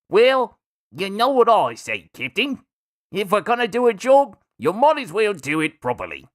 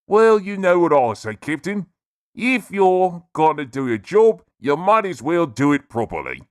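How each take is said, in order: First: The voice is pitched higher. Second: The voice is pitched deep.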